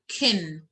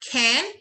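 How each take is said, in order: First: The vowel is reduced and short. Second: The vowel is full and clear.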